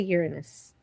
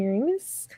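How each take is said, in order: First: It uses the modern pronunciation of the name. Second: It uses the joke-prone pronunciation of the name. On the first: This is how people say it now. "as they pronounce it today" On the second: It sets up a crude joke. "You mean like probing Uranus?"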